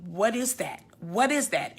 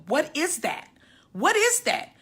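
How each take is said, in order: First: Said in the usual way. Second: Frantic. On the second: Retold or imitated. Frantic questioning of the nurse.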